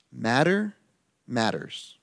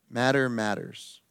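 First: Each word set apart, rising then falling; emphatic broken-up Matter matters; stressed slogan. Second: Said in the usual way. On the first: Shown as a demonstration.

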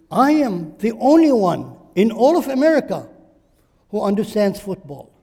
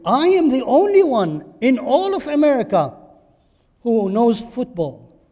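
First: Mock boast. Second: Loud, higher boast, stress on "am"; stretched mock boast. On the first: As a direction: brag like a conceited know-it-all. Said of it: "Look at your feelings". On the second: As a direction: stretch the claim out, savour the arrogance. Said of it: "Stretch the feelings".

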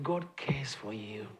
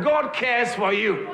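First: Slow, hesitant whisper of "God cares for you"; timid whisper. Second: Slow, ringing call: "God cares for you" said with full confidence; bold declaration. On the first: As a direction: say "God cares for you" barely above a breath. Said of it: "some of you don't say it like". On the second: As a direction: proclaim "God cares for you" to your neighbour. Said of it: "tell the person, I said". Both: Shown as a demonstration.

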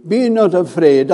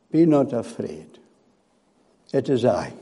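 First: Higher and fuller, declared boldly; ringing proclamation. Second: Softer, lower, a tender hush; calm the frightened with a hushed promise; gentle reassurance. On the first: Preacher declaring God's promise to the congregation, raised and ringing. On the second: Jesus gently reassuring his frightened disciples, soft and low. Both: Acted.

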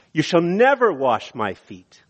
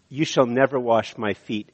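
First: NEVER punched higher, the rest falling away; emphatic refusal. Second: Said in the usual way. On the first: Shown as a demonstration. Peter refusing to let Jesus wash his feet, emphatic. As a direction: lean hard on the word never. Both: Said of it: "this is emphatic".

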